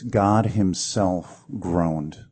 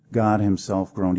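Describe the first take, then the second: First: God himself groaned drawn out very slowly, each word weighed; slow emphasis. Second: Said in the usual way. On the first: Shown as a demonstration. Preacher to congregation, slow weighty emphasis. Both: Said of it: "See, the really good news is this".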